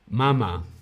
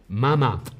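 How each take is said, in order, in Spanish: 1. El acento está en la primera sílaba. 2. El acento está en la primera sílaba.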